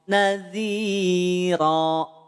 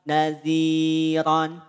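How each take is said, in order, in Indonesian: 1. Kata ini berakhir dengan vokal a panjang. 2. Kata ini berakhir dengan vokal pendek ditambah n. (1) "Panjang dua harokat mad iwad" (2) "Jangan dibaca naziron"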